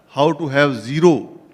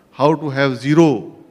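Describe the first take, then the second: No difference in how they are said.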